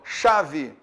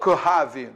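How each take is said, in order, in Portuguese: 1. O C e o H são pronunciados como um único som. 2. O C e o H são pronunciados como sons separados. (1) "Então eu falo chave" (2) "Eu não falo chave, não falo isso"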